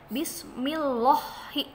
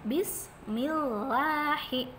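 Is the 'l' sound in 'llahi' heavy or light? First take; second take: heavy; light. First: The 'l' in 'llahi' sounds thick and heavy. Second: The 'l' in 'llahi' sounds thin and light. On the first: The speaker calls it wrong. "Nggak boleh dibaca bismillahi" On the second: The speaker calls it right. "Tapi tipis"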